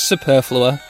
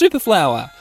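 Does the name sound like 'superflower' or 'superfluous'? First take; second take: superfluous; superflower. First: The name is said like 'superfluous'. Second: The name is said like 'super flower'. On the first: The speaker is unhappy with how it is doing. "If I'm depressed with how it's doing" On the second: The speaker is happy with how it is doing. "If I'm happy with how it's doing"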